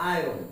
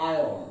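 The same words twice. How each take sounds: First: আয়রন said as "ai-ron"; everyday Bengali আয়রন, "ai-ron"; common mispronunciation. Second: আয়রন said as "ai-on", r swallowed; corrected pronunciation. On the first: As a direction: sound the r before the o in আয়রন. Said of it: "আমরা এটাকে উচ্চারণ করে থাকি". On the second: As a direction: drop the r in আয়রন, low falling end. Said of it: "কিন্তু উচ্চারণটা হবে". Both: Shown as a demonstration.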